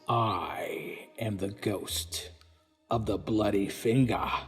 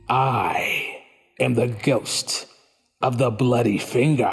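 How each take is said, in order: First: The line is said faintly and softly. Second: The line is said loudest of all.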